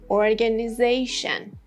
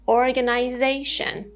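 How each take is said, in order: First: It is said in an American accent. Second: It is said in a British accent.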